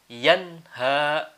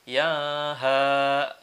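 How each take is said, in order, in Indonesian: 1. Bunyi n jelas diucapkan. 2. Bunyi n dihilangkan.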